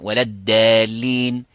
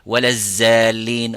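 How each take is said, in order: First: The second word begins with a d sound. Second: The second word begins with a z sound. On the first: "So they're all wrong" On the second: "not to make also the zay"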